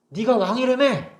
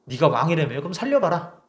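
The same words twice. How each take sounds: First: High, slow sneering 왕이라며 drawn out and falling; mocking jeer. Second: Mild mocking. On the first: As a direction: drag out 왕이라며 to ridicule him. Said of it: "그래서 사람들이 비웃어요". (왕이라며를 높고 느리게 비웃듯이) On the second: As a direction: lightly sneer 네가 왕이라며. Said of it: "비웃는 거죠". (네가에 힘을 준 가벼운 비웃음)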